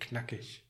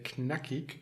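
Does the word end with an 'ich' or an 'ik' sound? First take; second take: ich; ik. First: The word ends with a soft 'ich' sound. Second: The word ends with a hard 'ik' sound. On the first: This is how it is said in northern regions. "if you're here in North Germany, Berlin and so on, you say knackig" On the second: This is how it is said in southern regions. "if you're in South Germany and some other regions, you say knackig"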